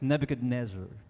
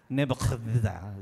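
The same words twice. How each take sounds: First: The name is said with an American pronunciation. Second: The name is said in an older regional way. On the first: This is how Americans say it today. "Pero sa American pronunciation" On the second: This is how it was said in that region back then. "Kasi doon sa area na may, may ganun yun"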